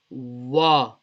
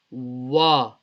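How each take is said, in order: First: It starts with a w sound, lips rounded. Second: It starts with a w sound, lips rounded.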